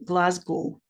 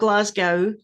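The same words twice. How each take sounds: First: The ending does not sound like Moscow's. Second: The ending sounds like the end of Moscow. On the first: The speaker calls it right. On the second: The speaker calls it wrong.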